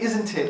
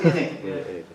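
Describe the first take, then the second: First: The first word is said in full. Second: The first word is reduced to 'in'. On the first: "in Manchester we don't say isn't it" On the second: "we say in it"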